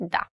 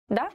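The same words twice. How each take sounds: First: Short, decisive yes; confident. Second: "Da" with a sharply rising, unsure tune; questioning "Da". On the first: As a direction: answer firmly, with no question in it. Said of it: "Have to be very confident". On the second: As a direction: say "Da" like a tentative question. Contrast before advising confidence. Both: Shown as a demonstration.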